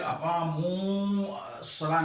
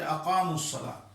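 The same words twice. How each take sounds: First: اقاموا الصلاۃ said with a long drawn madd; wrong reading. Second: اقاموا الصلاۃ with a short vowel, no madd; correct reading. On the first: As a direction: stretch the vowel of اقاموا. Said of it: "اس کو پھر اقاموا الصلاۃ نہیں کہیں گے". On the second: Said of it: "بلکہ". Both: Shown as a demonstration.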